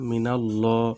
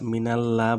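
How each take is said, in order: First: The l sound is heavy and thick. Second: The l sound is light and thin. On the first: The speaker calls it right. "জবর থাকলে এটা মোটা হবে" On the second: The speaker calls it wrong. "মিনাল্লাহ বলা যাবে না"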